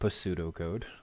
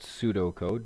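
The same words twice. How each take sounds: First: The word starts with an audible P sound. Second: The word starts with no P sound. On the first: The speaker calls it wrong. "not pseudocode" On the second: The speaker calls it right. "The P is silent"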